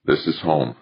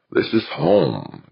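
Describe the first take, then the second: First: Understated thought to oneself; mild, matter-of-fact realization; inward admission. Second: High, drawn-out claim of home; a raised character voice, unhurried; firm declaration. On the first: A narrator's reading. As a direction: concede it privately, without emphasis. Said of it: "Archer admitted to himself". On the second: Acted. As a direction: say it slowly, landing on home. Devlin asserts the station is home.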